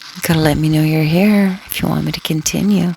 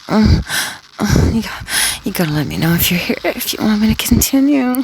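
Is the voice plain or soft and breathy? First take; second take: plain; soft, breathy. First: It is said in a plain speaking voice. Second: It is said in a soft, breathy voice.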